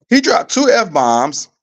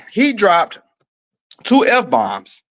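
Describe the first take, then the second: First: "He dropped two F-bombs" said higher and slow, each word leaned on; slow emphatic repeat. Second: Said in the usual way. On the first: Shown as a demonstration. Host repeating the shocking news to viewers, slow and emphatic. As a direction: drive home "He dropped two F-bombs" slowly.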